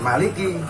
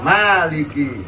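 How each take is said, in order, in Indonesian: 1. Vokal pertama dibaca pendek. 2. Vokal pertama dibaca panjang. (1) "jangan maliki, salah kalau maliki" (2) "Dipanjangin baca maliki"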